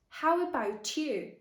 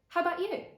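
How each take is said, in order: First: Every sound is said fully and carefully. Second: It is quick, with the schwa and T reduced. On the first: This is the textbook form. "what you can often hear in textbooks is exactly this" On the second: This is how people speak in everyday life. "in natural, everyday speech, people might often say"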